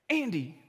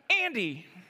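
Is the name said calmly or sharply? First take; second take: calmly; sharply. First: The name is said in a calm, mild tone. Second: The name is said in a sharp, stern tone.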